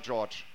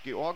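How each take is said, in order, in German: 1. Der Name wird auf amerikanische Art ausgesprochen. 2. Der Name wird auf deutsche Art ausgesprochen. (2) "Deutsch oder Amerikanisch"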